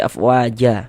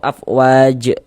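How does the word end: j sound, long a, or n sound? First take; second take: long a; j sound. First: The word ends on a lengthened a vowel. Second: The word ends abruptly on the j consonant. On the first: The speaker calls it right. "tapi kita baca afwaja" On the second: The speaker calls it wrong. "atau afwaj juga jangan"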